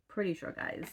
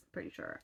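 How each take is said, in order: First: Said in the usual way. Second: Pretty sure whispered, no voice at all; whispered aside. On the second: Shown as a demonstration. Telling her viewers under her breath, in a whisper. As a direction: drop to a private whisper.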